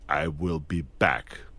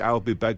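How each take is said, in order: First: The words 'I will' are said in full. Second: The words 'I will' are contracted to 'I'll'. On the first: It sounds strong, like a machine. The speaker calls it right. "why don't we say" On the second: It sounds weak. The speaker calls it wrong. "it sounds really weird when I said I'll. It sounds weak"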